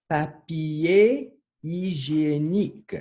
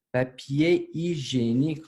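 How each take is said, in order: First: "Papier hygiénique" very drawn out, high and loud; slow word modelling. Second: Said in the usual way. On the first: Shown as a demonstration. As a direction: model "Papier hygiénique" slowly and loudly for learners. Teacher models long new word.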